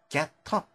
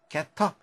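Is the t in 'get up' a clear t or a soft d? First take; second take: clear t; clear t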